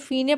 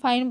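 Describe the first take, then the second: First: The first vowel sounds like 'ee'. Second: The first vowel sounds like 'eye'. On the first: The speaker calls it wrong. "इसको फीने पढ़ना चाहिए" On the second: The speaker calls it right. "बचपन से फाइन फाइन बोलते ही आए हैं"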